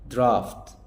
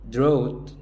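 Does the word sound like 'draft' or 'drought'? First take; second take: draft; drought. First: It ends in an 'aft' sound, like draft. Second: It rhymes with 'out', like drought. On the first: The speaker calls it right. "اسمها درافت" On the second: The speaker calls it wrong. "قلت دروت. لا"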